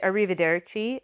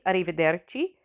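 First: Said in the usual way. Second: "arrivederci" with lightly tapped Italian R's; rolled R's. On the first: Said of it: "but everybody knows it". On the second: Shown as a demonstration. Teacher showing a tricky farewell, "arrivederci" with lightly rolled R's. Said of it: "rolling your R's".

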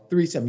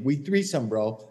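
First: Threesome repeated, punched and falling; stress on Threesome. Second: Said in the usual way. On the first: Retold or imitated. Caddy's player insisting, Threesome punched. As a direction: hit Threesome hard. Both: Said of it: "gives me a fucking direct order".

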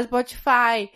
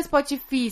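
First: "Spotify" ending in "fye", rhyming with "eye"; English-style ending. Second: "Spotify" ending in an "ee" sound; literal Portuguese reading. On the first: Friend shows the usual "Spotify", ending in "fye". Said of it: "você fala Spotify". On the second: Friend mocks the wrong reading of "Spotify", ending in "fee". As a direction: read "Spotify" as written, es-po-tchi-FEE. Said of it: "Você não fala Spotify". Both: Shown as a demonstration.

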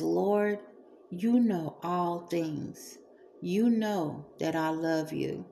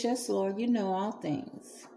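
First: Slow and deliberate, a hint of sincerity; earnest, attentive. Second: A light, casual yes with little weight; offhand, unemphatic. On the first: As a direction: take your time and mean every word. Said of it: "takes the time to really pay attention". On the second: Retold or imitated. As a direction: toss it off without thinking. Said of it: "not putting much emphasis on it".

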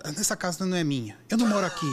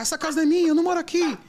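First: Said in the usual way. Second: Much higher and louder, a yelled denial; retold shouting. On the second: Drugged passenger yells at the driver, shouting. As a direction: yell it like the drugged girl in the car. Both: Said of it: "Começou a gritar".

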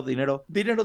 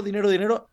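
First: Said in the usual way. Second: Higher and louder, eager; excited. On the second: Acted. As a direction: pile it on, getting greedy. Repeating money, rising.

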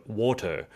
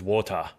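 First: "water" said carefully, away from Aussie pronunciation; trying non-Aussie "water". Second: "water" with a broad Australian open ending; Aussie "water". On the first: Aussie speech pathologist showing what Aussies can't manage, non-Aussie "water". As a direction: have a go at an un-Australian "water". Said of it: "have you noticed that we can't say". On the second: Aussie showing the host her natural accent, Australian "water". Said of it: "our unique Aussie accent". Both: Shown as a demonstration.

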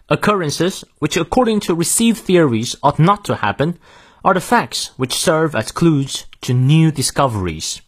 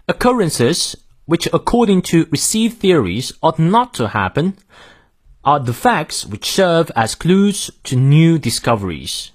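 First: Said in the usual way. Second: British model reading, no R after vowels; British pronunciation. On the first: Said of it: "再来一遍". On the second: Shown as a demonstration. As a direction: read it in British English, saying "are" as "ah". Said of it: "英式发音，". (英式发音，元音后的R不念)

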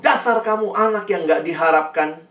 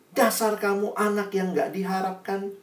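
First: Retold scolding, mildly raised voice; angry father. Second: Retold scolding, softer and higher-pitched; angry mother. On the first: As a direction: act out a father's rebuke with some restraint. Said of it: "papanya marah". (ayah marah, ditirukan) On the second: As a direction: act out a mother's restrained rebuke. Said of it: "mamanya marah". (ibu marah, ditirukan pelan)

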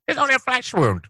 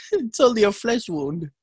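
First: Much higher hammy knight voice; Black Knight voice. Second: Black Knight voice. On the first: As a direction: shout it like a proud knight. Monty Python quote repeated. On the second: Monty Python quote. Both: Pretend.

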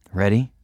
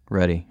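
First: Sweet, rising question; sweetly. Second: Said in the usual way. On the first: A narrator's reading. Girl asks boyfriend if he's ready, sweetly. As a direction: ask it with gentle sweetness. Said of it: "she asked sweetly". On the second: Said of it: "my heart pounding".

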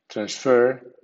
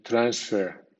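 First: Transfer as trans-FER; medium stress on prefix. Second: Transfer as TRANS-fer; strong stress on prefix. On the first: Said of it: "con acento medio". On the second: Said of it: "con acento fuerte". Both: Shown as a demonstration.

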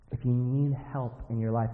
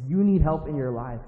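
First: Said in the usual way. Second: "you need" said firmly as a fact; emphatic statement. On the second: Shown as a demonstration. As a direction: stress "you need", a little louder. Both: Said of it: "it's not an if question".

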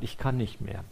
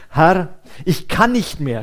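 First: Much softer, worn-out murmur on "kann"; a quiet, burnt-out admission; exhausted confession. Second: Elijah's cry, pushed out louder on "kann"; "kann" punched and falling, a worn-out groan; a loud weary moan of giving up; groaning despair. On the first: Retold or imitated. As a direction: let "Ich kann nicht mehr" sink away, drained. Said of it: "die zu mir gesagt hat". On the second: A narrator's reading. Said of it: "stöhnte er".

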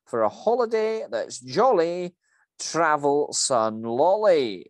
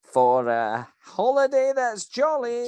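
First: Louder sing-song Scottish jingle, slowing on Sun Lolly; Scottish manager delivering the company slogan; Scottish voice reciting a cheesy jingle. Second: Much higher, louder and slower Scottish chant; leading the crowd to chant along; Scottish manager drilling the slogan into the crowd; call-and-response lead. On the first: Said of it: "that was a very good accent there". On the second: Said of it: "everybody with me". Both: Acted.

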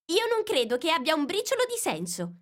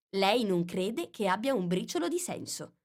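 First: Scornful. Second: Said in the usual way. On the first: Acted. Alice's retort.

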